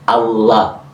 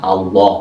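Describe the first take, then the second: First: The word is said with careful recitation pronunciation. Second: The word is said with a regional, O-like vowel. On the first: This is how it is said when reciting scripture. The speaker calls it right. "menggunakan tajwid" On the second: This is how it is said in everyday regional speech. The speaker calls it wrong. "bukan Allah, bukan O ya"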